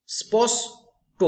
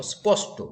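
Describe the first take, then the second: First: "স্পষ্ট" slowly split into স্পষ, pause, ট, pitched high; syllable split. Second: Said in the usual way. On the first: Shown as a demonstration. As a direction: break "স্পষ্ট" in two with a raised, drawn-out delivery. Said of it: "এইভাবে ভাগ করা যায়". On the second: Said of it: "এখানেও দেখো".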